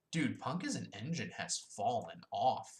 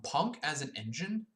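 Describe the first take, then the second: First: Said in the usual way. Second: Slow, higher, disbelieving rise; drawn-out doubtful question; incredulous question. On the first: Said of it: "Um, Punk as an engine?". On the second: Real, not acted. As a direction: ask it like you can't believe it.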